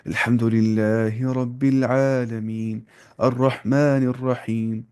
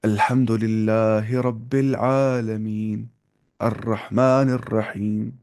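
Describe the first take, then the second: First: الحمد للہ رب العالمین recited slowly with light, thin Arabic vowels; slow Arabic-style recitation. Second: الحمد للہ رب العالمین recited slowly with thicker vowels, Pakistani style; slow Quranic recitation the local way. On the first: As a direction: recite الرحمن الرحیم as Arabs do, light and slow. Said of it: "عرب والے ایسے پڑھیں گے". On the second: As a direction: recite الرحمن الرحیم the way it is commonly read in Pakistan, slow. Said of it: "ویسے پڑھیں گے". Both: Shown as a demonstration.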